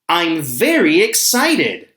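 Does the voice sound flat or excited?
excited. It is said with lively, excited energy.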